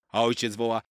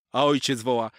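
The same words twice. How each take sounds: The two takes are said the same way.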